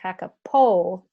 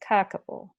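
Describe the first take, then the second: First: The stress falls on a later syllable. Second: The stress falls on the first syllable. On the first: The speaker calls it wrong. "So it's not kakapo" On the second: The speaker calls it right. "I put just a little bit of stress on the first syllable"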